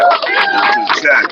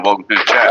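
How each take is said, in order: First: Very high, slow falsetto greeting; high silly voice. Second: Said in the usual way. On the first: Acted. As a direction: stretch it out in a squeaky high voice. Repeats greeting in put-on high voice.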